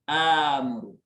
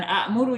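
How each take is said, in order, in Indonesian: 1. Vokal pertama panjang, tanpa hamzah. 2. Hamzah muncul setelah vokal pendek pertama.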